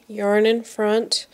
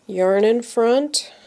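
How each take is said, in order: Both takes have the same delivery.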